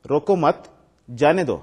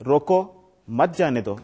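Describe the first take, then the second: First: روکو مت together and loud, pause, then جانے دو; pause after مت. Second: روکو set apart, pause, then مت جانے دو together; pause after روکو. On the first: Teacher showing students the reading that means don't stop him, pause after مت. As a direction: break firmly between روکو مت and جانے دو. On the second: Teacher showing students the reading that means stop him, pause after روکو. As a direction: break right after روکو, running مت into جانے دو. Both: Shown as a demonstration. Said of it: "اس طریقے سے پڑھیں".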